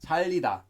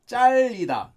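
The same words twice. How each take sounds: First: The first consonant is plain and soft. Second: The first consonant is tense and hard. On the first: This is how the word is written. "It's spelled as 잘리다" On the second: This is how people actually say it. "it's actually pronounced as 잘리다 with 짤"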